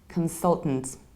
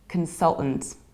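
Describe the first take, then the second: First: The middle T sound is dropped. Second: The same.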